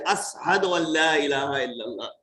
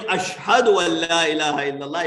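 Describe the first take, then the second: First: ASHHADU with s in place of sh, as-hadu; lisped sheen. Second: ASHHADU with a clear sh sound; proper sheen. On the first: Preacher imitates Bilal's adhan, sheen lisped to s. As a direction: turn the sh of Ashhadu into a plain s. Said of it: "He couldn't pronounce sheen properly". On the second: Preacher shows the expected adhan wording, sheen pronounced as sh. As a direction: say Ashhadu with a full, correct sh. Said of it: "Instead of saying". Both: Shown as a demonstration.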